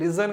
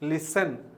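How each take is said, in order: First: The middle consonant is a z sound. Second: The middle consonant is an s sound. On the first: The speaker calls it wrong. "ఇది లిజన్ కాదు" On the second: The speaker calls it right. "సా సాగా పలకాలి"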